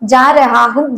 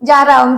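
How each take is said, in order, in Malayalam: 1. ഓരോ വാക്കും പൂർണ്ണമായും വേറെ വേറെയായി പറയുന്നു. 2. വാക്കുകൾ കൂട്ടിച്ചേർത്ത് ചുരുക്കിയാണ് പറയുന്നത്.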